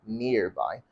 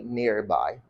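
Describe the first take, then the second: First: The R sound is pronounced. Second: The same.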